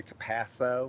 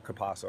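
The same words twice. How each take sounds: First: Capasso with a Southern flat "a": kuh-PASS-oh; Southern pronunciation. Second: Capasso with a broad "ah": kuh-PAH-so; Italian-style pronunciation. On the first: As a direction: say Capasso with the vowel of "cat". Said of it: "when I'm being Southern". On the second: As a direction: say Capasso the Italian way, with the vowel of "father". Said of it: "How do Italians say it?". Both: Shown as a demonstration.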